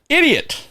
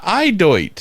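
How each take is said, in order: First: The word is said with its usual pronunciation. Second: The word is said with an odd, misread pronunciation. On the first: This is the word that was actually written. The speaker calls it right. "It was idiot" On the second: A child misread an unfamiliar word. The speaker calls it wrong. "it wasn't Eideut"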